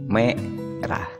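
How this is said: The word is split with a break between syllables. "jadi dipotong atau dipenggal menjadi merah"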